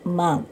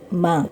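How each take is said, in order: No difference in how they are said.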